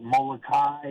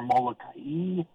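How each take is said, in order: First: "Molokai" as mo-lo-KAI, rhyming with "sky"; Molokai ending in kai. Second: "Molokai" as mo-lo-ka-EE; Molokai with separate i. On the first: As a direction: merge the end of "Molokai" into one syllable. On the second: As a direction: break the end of "Molokai" into ka-ee. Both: Shown as a demonstration. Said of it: "Is it Molokai or Molokai?".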